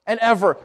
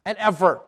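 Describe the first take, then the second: No difference in how they are said.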